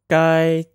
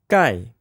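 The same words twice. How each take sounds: First: The pitch stays high and level. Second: The pitch falls sharply from high to low.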